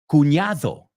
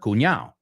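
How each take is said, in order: First: The D sound near the end is pronounced. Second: The D sound near the end is dropped. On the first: "con la D" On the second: "I've always heard"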